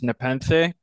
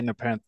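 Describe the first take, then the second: First: The name is said the ancient Greek way. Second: The name is said in an English way. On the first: This is how the original language said it. "the ancient Greek sort of pronunciation is Nepenthe" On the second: This is how the band chooses to say it. "we say Nepenthe because we think it sounds better"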